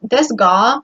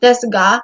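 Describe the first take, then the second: First: "desu ga" with a rounded "ah", a hint of W ending "ga"; rounded Osaka vowels. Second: "desu ga" with a crisp, open "ah" on "ga"; crisp Tokyo vowels. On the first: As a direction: round the vowel of "ga" toward a faint W, Osaka-style. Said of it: "there's kind of a W hinted at". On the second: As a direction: say "desu ga" with a clean, unrounded final "ah". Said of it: "it's a lot more crisp". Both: Shown as a demonstration.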